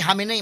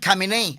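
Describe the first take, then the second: First: The name starts without the K sound. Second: The name starts with a clear K sound. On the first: Other broadcasters say it this way. "murag silent K" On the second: Some broadcasters say it this way. "Ang uban Khamenei"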